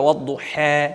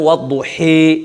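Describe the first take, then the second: First: The final vowel leans slightly toward 'e'. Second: The final vowel is bent strongly toward 'ee'. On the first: "আরেকটু বাঁকা করে পড়া" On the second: "তিন নাম্বারটা হলো এমালা, এমালায় কোবরা বড় এমালা"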